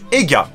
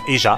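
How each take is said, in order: First: The middle consonant is a hard g. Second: The middle consonant is a soft j. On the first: This form was chosen to allow puns. The speaker calls it wrong. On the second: This is probably the real pronunciation. The speaker calls it right.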